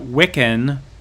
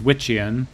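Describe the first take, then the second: First: The middle consonant is a hard k sound. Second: The middle consonant is a ch sound.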